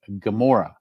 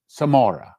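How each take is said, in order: First: The name begins with a hard G sound. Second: The name begins with a TS sound. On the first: The speaker calls it wrong. "We say Gamora" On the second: The speaker calls it right. "the correct pronunciation is Samora with a TZ or Sadi"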